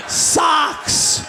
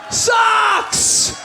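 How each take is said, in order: First: Said in the usual way. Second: Disgusted socks. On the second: Shown as a demonstration.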